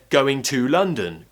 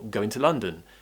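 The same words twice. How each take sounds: First: Going to is said slowly and in full. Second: Going to is relaxed, fast and reduced. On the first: "If I said going to London" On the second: "it becomes a lot faster when I relax that too"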